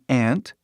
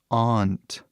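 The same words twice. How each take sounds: First: The word sounds the same as ant. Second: The word has an open 'ah' vowel. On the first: "tem uma outra palavra que tem a mesma pronúncia" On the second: "que é bem diferente, né? Aunt, que é tipo A, um, T"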